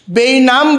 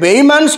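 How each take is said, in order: First: The n sound comes before the m sound. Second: The m sound comes before the n sound. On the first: The speaker calls it wrong. "ବେଇନାମ ବୋଲିକିରି ଶବ୍ଦଟାକୁ ସେ ଉଚ୍ଚାରଣ କଲେ" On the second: The speaker calls it right. "ଶୁଦ୍ଧ ଭାବରେ"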